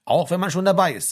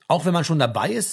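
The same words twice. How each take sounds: First: „Auch wenn man schon dabei ist“ higher and louder, falling on „dabei ist“; firm confirmation. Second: „Auch wenn man schon dabei ist“ as a question, rising on „ist“. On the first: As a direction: confirm it emphatically, dropping at the end. Frank confirms by repeating her question. (bestätigend, „dabei ist“ fallend) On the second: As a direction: lift the end of „dabei ist“ to ask. Birgit asks back, Frank confirms. (fragend, „dabei ist“ steigend) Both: A narrator's reading.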